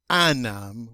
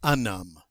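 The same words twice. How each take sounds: First: "anum" with a flat a, as the error; teacher showing a wrong French sound; wrong pronunciation. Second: "unum" with the un vowel kept but not nasal; teacher giving the correct French sound; correct pronunciation. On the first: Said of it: "We don't say". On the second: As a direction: say "unum" the right way, linked. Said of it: "we say". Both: Shown as a demonstration.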